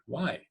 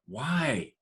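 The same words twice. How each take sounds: First: The word sounds curious and interested. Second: The word sounds frustrated. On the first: "With curiosity" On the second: "With frustration"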